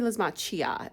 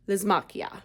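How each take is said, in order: First: The 'ch' is said as a 'ch' sound. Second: The 'ch' is said as a 'k' sound. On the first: "It's got the C H" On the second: "I like to pronounce that as a K"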